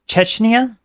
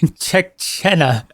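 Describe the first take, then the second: First: It is said as Chechnya. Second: It is said as Chechena. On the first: "Is that how you pronounce it?" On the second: "I've been pronouncing it Chechena"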